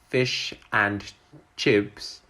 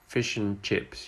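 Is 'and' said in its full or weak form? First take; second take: full; weak. First: The word 'and' is said fully and clearly. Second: The word 'and' is reduced and linked. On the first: The speaker calls it wrong. "We don't say" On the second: The speaker calls it right. "the and is pronounced in its weak form"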